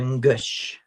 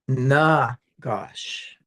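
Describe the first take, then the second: First: The first vowel is nearly dropped. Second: The first vowel is fully pronounced. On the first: "As opposed to ngush" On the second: "full or not full pronunciation"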